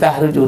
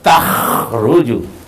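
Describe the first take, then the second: First: The middle consonant is a plain breathy h. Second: The middle consonant is a rasping throat kh. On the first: The speaker calls it wrong. "jangan bilang tahruju" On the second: The speaker calls it right. "jelaskan takhruju pakai kho"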